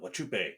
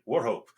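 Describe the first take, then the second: First: The name is read out following its spelling. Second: The name is said like 'war-hope'. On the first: The speaker calls it wrong. "it is spelled Wachupe" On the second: The speaker calls it right. "it is pronounced Warhope"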